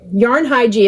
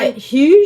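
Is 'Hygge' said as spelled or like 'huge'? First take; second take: as spelled; like huge. First: The name is pronounced the way it is spelled. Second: The name is pronounced like the word 'huge'. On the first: "that's not right. I always say it that way, but it's it that's because to me that's the way it's spelled" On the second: "I think it's huge. That's probably not right either"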